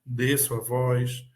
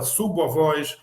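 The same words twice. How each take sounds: First: Lowered voice. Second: Raised voice. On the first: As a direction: let "desço a voz" sink, slowly. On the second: Teacher showing raising the voice, "Subo a voz" lifted. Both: Shown as a demonstration.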